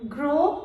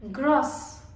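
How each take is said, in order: First: "gros" with silent s; masculine pronunciation. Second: "grosse" with sounded s; feminine pronunciation. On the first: Teacher modelling the masculine form, "gros" without final s. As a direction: end "gros" on a rising o. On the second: Teacher modelling the feminine form, "grosse" with final s. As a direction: close "grosse" on an s. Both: Shown as a demonstration.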